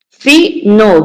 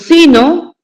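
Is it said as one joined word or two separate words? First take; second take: separate; joined. First: It is said as two separate words. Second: It is said as one joined word. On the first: It means 'if not'. "lo está diciendo separado" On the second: It means 'fate'. "escuchen cómo se dice pegado"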